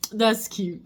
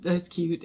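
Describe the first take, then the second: First: Said in the usual way. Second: That's cute whispered, breathy and soft. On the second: Real, not acted. Amused mother whispers it to herself about her son.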